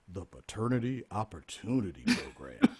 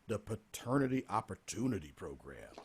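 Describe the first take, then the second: First: It is said in a radio announcer voice. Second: It is said in his normal speaking voice.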